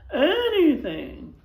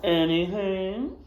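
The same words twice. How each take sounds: First: Desperate plea. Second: Sly grin. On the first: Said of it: "pleaded the sheriff". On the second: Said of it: "said the widow with a grin". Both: Acted.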